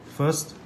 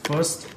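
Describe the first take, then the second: No difference in how they are said.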